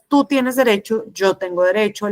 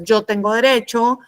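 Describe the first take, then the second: First: Even, assertive statement. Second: Mildly aggressive, slightly raised voice. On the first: Teacher showing students assertive communication, assertive. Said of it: "Una comunicación asertiva es". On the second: Teacher showing students aggressive communication, mildly aggressive. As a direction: push it as a self-centred claim. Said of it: "la agresiva es". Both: Shown as a demonstration.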